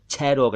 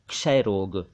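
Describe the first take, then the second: First: The first sound is not a clear 'ksh' cluster. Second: The first sound is a clear 'ksh' cluster. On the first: The speaker calls it wrong. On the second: The speaker calls it right.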